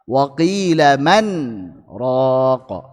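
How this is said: A brief stop after 'man' keeps the n clear. "membaca dengan saktah"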